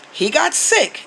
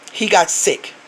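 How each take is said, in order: First: "He got sick" jumps much higher, pressing "got" hard; emphatic repeat. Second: Said in the usual way. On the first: Real, not acted. Insisting to Zaddy her nephew really got sick, emphatic. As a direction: lift the whole line up high to drive "got" home.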